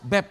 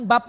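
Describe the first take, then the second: First: "Beb" with an e; correct pet name. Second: "bab" with an open a; wrong pet name. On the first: Preacher correcting the couple's pet name, "Beb" with an e. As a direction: say "Beb" with an e, like English babe. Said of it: "Jangan bab loh". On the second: Preacher warning couples off the wrong pet name, "bab" with an a. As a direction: say "bab" with an a, as the mistaken form of Beb. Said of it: "bab buang air besar loh". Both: Shown as a demonstration.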